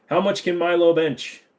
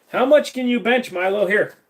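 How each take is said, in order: First: Said in the usual way. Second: "How much can you bench, Milo?" lifted high and bouncy to the dog; playful pet talk. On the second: Acted. Streamer turning to his dog, playful and pitched up. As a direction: tease the dog in a higher, sing-song voice.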